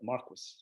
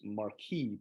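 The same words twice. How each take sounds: First: The name is said the old English way. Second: The name is said in a non-English way. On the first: This is how the English said it then. The speaker calls it right. "the English would at that time call it Marquis" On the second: This is how it looked when first read. The speaker calls it wrong. "when I read it, I thought it was Marquis"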